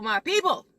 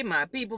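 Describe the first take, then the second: First: Higher and louder sing-song greeting; big sing-song greeting. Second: Upbeat greeting with a rise on people; bright greeting. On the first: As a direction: call it out like greeting a crowd. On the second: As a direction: warm sing-song hello, lifting at the end. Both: Real, not acted. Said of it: "repeated greeting, second one bigger".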